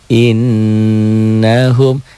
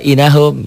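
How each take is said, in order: First: The n is doubled, held and nasalized. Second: The n is single, short and not nasalized. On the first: The speaker calls it right. "Harusnya kan innahum" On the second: The speaker calls it wrong. "Dia baca inahum gitu"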